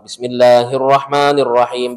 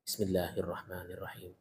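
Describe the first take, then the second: First: The phrase is recited aloud, clearly audible. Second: The phrase is recited softly, barely audible. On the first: "Basmalahnya dibaca jahar" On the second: "dibaca sir gitu kan ya, dibaca pelan"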